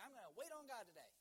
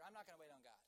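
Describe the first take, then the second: First: Higher, louder and eager; punched-up, confident resolution; keen resolve. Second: Deflated, matter-of-fact refusal; mildly resigned backtracking; giving up. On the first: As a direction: declare it with fresh morning enthusiasm. Acted keen morning resolve, then reversal. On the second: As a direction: let the resolve drop away. Acted giving up three hours later. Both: Acted.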